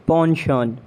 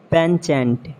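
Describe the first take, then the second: First: "Pension" as PON-shon; French-style SH in "Pension"; British pronunciation. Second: "Penchant" as PEN-chant; CH as in chair in "Penchant"; mispronounced penchant. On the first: Shown as a demonstration. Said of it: "exact pronunciation according to the British". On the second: Acted. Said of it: "you have to correct me".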